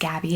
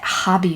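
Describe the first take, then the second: First: The name begins with a hard G sound. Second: The name begins with a throaty, breathy sound. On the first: "so it's Gabby" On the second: "you pronounce it Hobby because that's Dutch"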